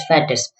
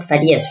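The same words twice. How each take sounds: First: "fattest" as fat plus test, no i sound, dropping low and soft; correct form fattest. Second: "fattiest" said as fatty plus est, the wrong form. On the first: Teacher giving students the correct superlative, soft and falling. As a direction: give the right form "fattest", short and falling. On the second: Teacher showing students the wrong superlative, plain and clear. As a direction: show the mistake "fattiest", with an extra i before est. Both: Shown as a demonstration. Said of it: "this is not fattiest".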